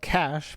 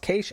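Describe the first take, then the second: First: The word is said the common, widespread way. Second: The word is said the Australian way. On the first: "most people call it cash" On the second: "in Australia, where my first tech job was, it was pronounced cache"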